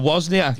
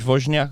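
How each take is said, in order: First: The name is said with English pronunciation. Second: The name is said with Polish pronunciation. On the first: This is the version the speaker uses day to day. "I've westernized it and gone with" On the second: This is how a native speaker would say it. "if you ask the Polish person, they go"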